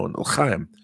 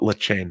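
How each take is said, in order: First: The last syllable rhymes with 'time'. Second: The last syllable rhymes with 'came'. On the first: The speaker calls it right. "no, l'chaim" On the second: The speaker calls it wrong. "people kept saying "lechame""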